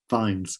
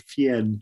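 First: The name is given an English pronunciation. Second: The name is given a French pronunciation. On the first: "but we've made it sound English" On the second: "there's a little village in France called Fien"

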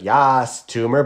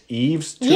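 First: The first name is read in an English way. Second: The first name is said in a French way. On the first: The speaker calls it wrong. "I thought it was like" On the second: The speaker calls it right. "but you said it's [name]. I guess [name] is French"

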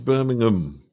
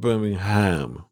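First: The word's ending is reduced and mumbled. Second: The word's ending is pronounced fully and clearly. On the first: The speaker calls it right. "you basically just mumble to the end of it" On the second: The speaker calls it wrong. "It's not Birmingham"

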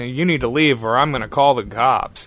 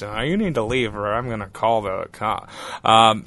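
First: It is said in the speaker's ordinary voice. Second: It is said in a put-on imitation voice. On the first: The words are reported as what someone yelled. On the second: The words are acted out as the original caller.

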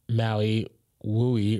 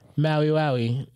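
First: The second word begins with a 'woo' sound. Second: The second word begins with a 'wow' sound. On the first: The speaker calls it wrong. "not Maui Wooey, ... people pronounce it wrong" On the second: The speaker calls it right.

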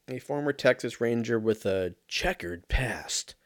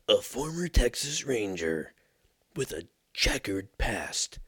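First: It is read in the speaker's ordinary voice. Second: It is read in a dramatic movie-trailer voice.

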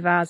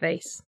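First: The vowel is long, rhyming with bars. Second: The vowel rhymes with base and case. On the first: This is the British way to say it. "we say vase" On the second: This is the American way to say it. "instead of vase, because it's like base and case"

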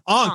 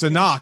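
First: The name part is said as one syllable. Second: The name part is said as two syllables. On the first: The speaker calls it wrong. "my brain always goes like Ankh" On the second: The speaker calls it right. "no, it's Anak"

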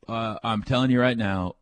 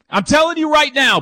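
First: It is said flatly, without much enthusiasm. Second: It is said loudly, with lots of enthusiasm. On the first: The speaker calls it wrong. "I didn't say it very enthusiastically" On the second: The speaker calls it right. "That was better"

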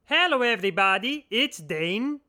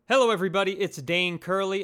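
First: It is said in a put-on voice. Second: It is said in his natural voice.

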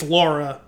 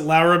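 First: The name is said with plain English sounds. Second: The name is said with Spanish-style sounds. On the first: "it's Laura" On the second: "she pronounced it Laura because... she would always play up the Latin roots"

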